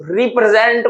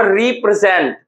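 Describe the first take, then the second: First: represent broken into three parts; split into syllables. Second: Said in the usual way. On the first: Shown as a demonstration. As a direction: say represent part by part, rep-re-zent. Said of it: "देखिए क्या लिखते हैं". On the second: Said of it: "represent को हम लोग देखिए".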